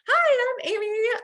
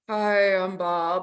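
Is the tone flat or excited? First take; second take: excited; flat. First: It is said in an excited, upbeat tone. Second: It is said in a flat, unengaged tone.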